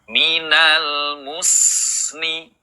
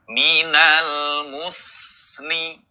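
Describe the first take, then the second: Both takes have the same delivery.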